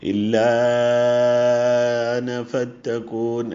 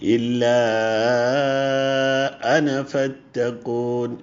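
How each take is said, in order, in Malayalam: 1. 'ana' ക്ക് മുമ്പുള്ള ഗ്ലോട്ടൽ സ്റ്റോപ്പ് മങ്ങിയതാണ്. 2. 'ana' ക്ക് മുമ്പ് വ്യക്തമായ ഗ്ലോട്ടൽ ബ്രേക്ക് വരുന്നു. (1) "ഹംസ ക്ലിയർ ആയിട്ടില്ല" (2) "ബ്രേക്ക് ഓഫ് സൗണ്ട് വരണം"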